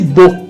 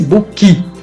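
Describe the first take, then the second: First: The word ends cleanly on the K consonant. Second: An extra I-like vowel follows the final K. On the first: The speaker calls it right. "Repare que eu disse book" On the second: The speaker calls it wrong. "Eu não disse book"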